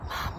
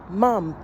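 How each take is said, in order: First: It is said very quietly. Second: It is said louder and clearer.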